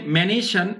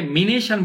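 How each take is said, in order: First: ম্যানেশন with an open "me" first syllable, "me-ne-shan"; American pronunciation. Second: মিনেশন with a close "mi" first syllable; wrong vowel. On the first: Teacher modelling American English, open vowel after m. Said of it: "মিনেশন বলতে পারবেন না". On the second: Teacher warning against it in American English, wrong i vowel. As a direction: say মিনেশন with i after the m, the form to avoid. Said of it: "বলতে পারবেন না". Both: Shown as a demonstration.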